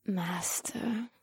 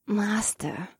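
First: Breathy moan of Master. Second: Hungry growl. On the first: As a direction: moan it in a whisper. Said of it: "Akira moaned". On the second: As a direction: breathe out Master hungrily. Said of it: "Akira growled in a hungry voice". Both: Acted.

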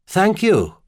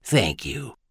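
First: Higher-voiced, pleasant gentleman; courteous tenor reply. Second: Soft, warm thanks; gently warm and hushed; smiling warmly. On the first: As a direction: give thanks in a light tenor. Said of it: "he replied in a pleasant tenor voice". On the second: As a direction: thank them quietly with a smile. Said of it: "smiling warmly at him". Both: A narrator's reading.

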